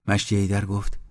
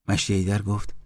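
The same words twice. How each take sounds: The two takes are said the same way.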